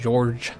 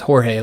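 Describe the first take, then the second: First: The name starts with a soft ZH sound. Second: The name starts with a throaty H-like sound. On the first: The speaker calls it right. "the J is more like how the uh, French say it" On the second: The speaker calls it wrong. "I pronounced it as Jorge like it was Spanish"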